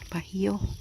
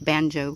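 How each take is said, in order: First: The word is said with a Spanish pronunciation. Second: The word is said with an English pronunciation. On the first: The speaker calls it right. "if you pronounce it right, it's if it's Spanish" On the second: The speaker calls it wrong. "I always say it's banjo"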